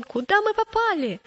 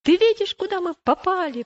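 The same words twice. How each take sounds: First: High-pitched, startled question; alarmed cry. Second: High, loud accusing outburst; angry. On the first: Boy sinking in the bog to his companion, crying out in alarm. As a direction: exclaim in sudden dismay. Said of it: "закричал он". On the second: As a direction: round on your companion in indignation. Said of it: "Уступчивый сильно рассердился". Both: A narrator's reading.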